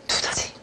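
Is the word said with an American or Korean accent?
Korean. Korean accent, with a strong puff of air. "우리말 디귿 같은 경우는 바람이 굉장히 많이 나오는 소리예요"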